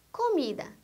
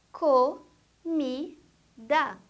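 First: Said in the usual way. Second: "comida" very slowly as co, mi, da; three separate beats in "comida"; syllable by syllable. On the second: Shown as a demonstration. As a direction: pause after each syllable of "comida". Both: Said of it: "A palavra que tem três sílabas".

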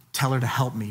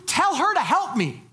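First: Said in the usual way. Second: Higher, bossy demand. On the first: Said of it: "It's bad protocol". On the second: Retold or imitated. Martha commanding Jesus to send her sister, demanding. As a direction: order him around like a put-upon sister. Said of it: "don't command Jesus to do anything".

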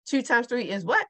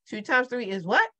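The two takes are said the same way.

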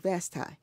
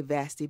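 First: "Vasti" ending in a long eye sound; grandmother's own pronunciation. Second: "Vasti" ending in an ee sound; common pronunciation. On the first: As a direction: say "Vasti" with last syllable like tie. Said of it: "she pronounced it Vasti". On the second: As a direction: say "Vasti" the common way, last syllable like tee. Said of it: "People say Vasti, but she pronounced it". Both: Shown as a demonstration.

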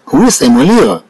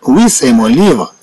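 First: Said in the usual way. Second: Slow for learners. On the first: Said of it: "first normal take". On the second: Shown as a demonstration. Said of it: "slow repeat for learners".

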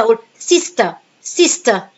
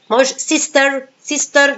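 First: سيستا with the r dropped, ending on a; soft final r. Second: سيستر with a strong final r, pitched up; wrong pronunciation. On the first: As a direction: say سيستا, not sister, the final r silent. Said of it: "أنطقه خفيف خالص". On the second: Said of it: "no, it's wrong". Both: Shown as a demonstration.

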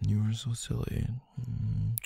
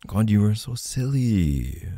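First: High, hushed affectionate teasing; soft fond coo. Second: Higher-pitched, drawn-out fond scolding; fond teasing. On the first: Partner soothes silly loved one, soft fond coo. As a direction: coo it much more softly. Same tease, softened to a coo. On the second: Partner chides loved one for being silly, fond teasing. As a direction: tease them affectionately at full voice. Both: Acted.

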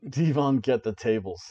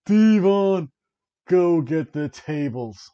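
First: Said in the usual way. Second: Higher, louder, slow drawn-out call; imitating the call. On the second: Announcer voice calling for tables, hammed-up. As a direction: call it out like the famous catchphrase. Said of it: "You can almost hear".

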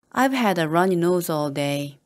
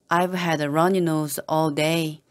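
No difference in how they are said.

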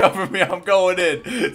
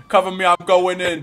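First: Slow hammed-up hero shout; cover me shout. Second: Loud action-hero call; cover me shout. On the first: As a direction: stretch it out like a movie. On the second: Pretend. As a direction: shout it like storming in. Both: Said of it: "You guys need to cover me".

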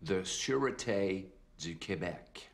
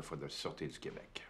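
First: Sûreté du Québec repeated slowly, each word laid out clearly; slow down and lay out Sûreté du Québec for him; spelled out slowly. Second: Sûreté du Québec tossed off quickly, trailing away softly; just slip the words Sûreté du Québec in quietly; said in passing. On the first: Cop repeating his unit for the puzzled captain, slow and clear. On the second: Undercover cop giving his unit to the captain, mumbled. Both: Acted. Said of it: "For who?".

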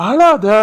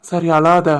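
First: Higher, louder don't cry; husband urging his weeping wife to stop; firmer plea. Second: Gentle comfort. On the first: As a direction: insist she stop crying, raised. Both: Acted. Husband comforts crying wife.

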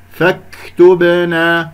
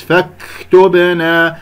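First: فاكتبنا slowly, k released with a moderate puff, no vowel; correct light hams. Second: فاكتبنا with an exaggerated long puff of air after k; overdone hams. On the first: Teacher models the correct kaf, light breath. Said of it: "الصحيح فاكتبنا هكذا". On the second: Teacher shows the second mistake, overbreathed kaf. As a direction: let too much breath rush out of the k. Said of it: "أو يبالغ في الهمس". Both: Shown as a demonstration.

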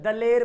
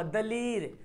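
First: दलेर with an e, "daler"; usual spoken form. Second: दलीर with a long ee, "daleer"; spelling pronunciation. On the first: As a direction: say दलेर with e, not ee. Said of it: "लेकिन हम लोग क्या पढ़ते हैं?". (दलेर में ए की आवाज़) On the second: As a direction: stretch the ee in दलीर. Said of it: "दलीर लिखा हुआ". (दलीर में ई खींचकर) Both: Shown as a demonstration.

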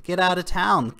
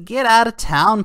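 First: "Get out of town" repeated at normal loudness, falling on "out". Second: "Get out of town" thrown out high and loud, punch on "out"; scoffing dismissal. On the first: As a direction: let it drop, done with him. Repeats the scoff. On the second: Vlogger scoffing at Putin's crypto warning, high and loud. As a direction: scoff it like you can't believe it. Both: Real, not acted.

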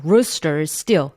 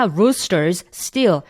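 First: "rooster, still" run together on one shared s; linked as one. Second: "roosters, still" as two separate words, each fully pronounced. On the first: Teacher modelling linking for students, "rooster, still" as one sound. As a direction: keep only the second s in "rooster, still". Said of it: "뒤에 발음만 살려주시면 돼요. 그래서 하나의 발음으로". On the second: Teacher showing students what to avoid, over-enunciated word by word. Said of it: "한 단어 한 단어 또박또박 꼭꼭 씹어서". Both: Shown as a demonstration.

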